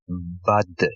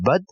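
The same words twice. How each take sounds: First: The final consonant ends with a small echo sound. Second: The final consonant is cut off without an echo. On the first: "Notice again the small uh kind of sound at the end" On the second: "from bud"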